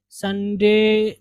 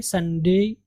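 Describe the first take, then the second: First: संडे slowly, ending in a plain long "dey"; flat-vowel ending on slow संडे; local mistaken pronunciation. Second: संडे ending in a gliding "day"; "SUN-dey-i" for संडे; correct pronunciation. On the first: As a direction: say संडे with no glide at the end. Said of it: "नहीं पढ़ेंगे इसको". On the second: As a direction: glide from e to i at the end of संडे. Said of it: "तो आप पढ़ेंगे". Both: Shown as a demonstration.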